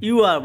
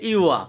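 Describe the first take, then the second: First: ইউয়ার with the R pronounced at the end; final R sounded. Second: ইউয়া ending on an open "aa", no R; silent final R. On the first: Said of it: "আর এর উচ্চারণটা সাথে করতাম". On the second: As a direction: say ইউয়া as "iu-waa", dropping the R. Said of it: "আর এর উচ্চারণটা আমরা করিনি". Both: Shown as a demonstration.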